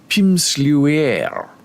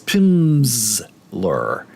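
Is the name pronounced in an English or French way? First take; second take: French; English. First: It is pronounced in a French way. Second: It is pronounced in an English way, s as z. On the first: The speaker calls it wrong. "You want to be fancy and say Pimsleur. Make it a French pronunciation" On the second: The speaker calls it right. "but it's not, it's Pimsleur. ... the Z is in there for the S"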